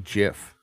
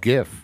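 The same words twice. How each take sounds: First: It begins with a soft J-like G. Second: It begins with a hard G sound. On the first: The speaker calls it wrong. "does not have the soft G sound" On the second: The speaker calls it right. "So I think it's GIF"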